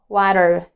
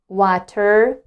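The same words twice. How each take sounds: First: The middle T is a quick D-like flap. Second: The middle T is a clear, crisp T. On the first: "they say water, ... It is called flap T" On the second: "instead of saying water"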